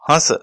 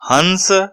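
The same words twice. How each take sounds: First: The word is said lightly without force. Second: The word is said with strong force. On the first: "चंद्र बिंदु लगा होने पर बिना किसी अक्षर पर जोर दिए हल्के से ही बोला जाता है" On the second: "अनुस्वार ... विशेष जोर लगाकर बोला जा रहा है"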